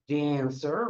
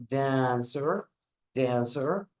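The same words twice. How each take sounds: First: Said in the usual way. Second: Dancer with the first syllable DAN clearly stressed and the second weak. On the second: Shown as a demonstration. Teacher models Dancer for the class to repeat, stress on DAN. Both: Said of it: "Repeat after me".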